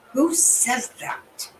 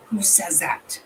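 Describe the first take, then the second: First: Slow, high, drawn-out incredulous question; stunned disbelief. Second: Breathless whispered disbelief. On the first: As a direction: let the disbelief stretch every word. Reacting in disbelief to a clip. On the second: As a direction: whisper it as if to yourself. Repeating the question to herself. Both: Real, not acted.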